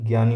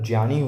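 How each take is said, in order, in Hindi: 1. शब्द g + y ध्वनि से शुरू होता है। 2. शब्द j + नासिक ध्वनि से शुरू होता है। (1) "न कि ज्ञानी होता है" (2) "सही इसका उच्चारण देखें तो इसका उच्चारण ज्ञानी होता है"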